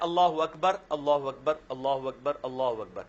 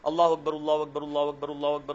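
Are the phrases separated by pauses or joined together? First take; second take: separated; joined. First: Each phrase is said separately with a stop. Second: The phrases are joined quickly without breaking breath.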